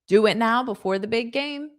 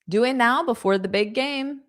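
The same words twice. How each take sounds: Both takes have the same delivery.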